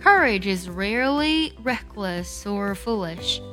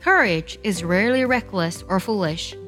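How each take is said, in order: First: It is read slowly and carefully. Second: It is read at normal speed.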